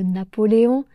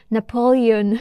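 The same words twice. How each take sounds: First: Said in the usual way. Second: Napoleon said the English way, stress on -le-, final -on with no nasal; English accent. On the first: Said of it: "au lieu de Napoléon". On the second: Shown as a demonstration. French teacher imitating the English film actors' Napoleon, English accent. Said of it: "avec un accent anglais".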